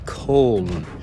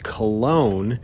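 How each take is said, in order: First: The name is pronounced the German way. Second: The name is pronounced the English way. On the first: "the German way of pronouncing it is Köln" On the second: "That's the American way of pronouncing it"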